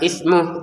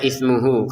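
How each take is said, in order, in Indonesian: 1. Berakhir pada konsonan 'h' tanpa vokal. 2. Berakhir dengan vokal pendek 'hu'. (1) "tidak ada panjang kalau kita berhenti" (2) "kita baca ismuhu kalau digabung"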